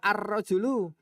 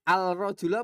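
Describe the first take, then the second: First: The L blends into a doubled R sound. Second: The L of the article is pronounced. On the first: "Al-Rajulu apa Ar-Rajulu?" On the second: "Al-Rajulu apa Ar-Rajulu?"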